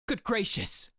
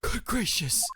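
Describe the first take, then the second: First: It is said in a plain, non-breathy voice. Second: It is said in a breathy voice.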